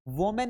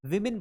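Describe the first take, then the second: First: "वुमेन" said WO-men; wrong plural pronunciation. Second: "women" said WIM-in; short i in both syllables of "women"; correct plural pronunciation. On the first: Teacher showing students what to avoid, wrong plural pronunciation. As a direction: round first vowel, clear e in the end of "वुमेन". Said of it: "नहीं पढ़ेंगे". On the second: Teacher showing the word for several ladies, correct plural pronunciation. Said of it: "women पढ़ेंगे". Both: Shown as a demonstration.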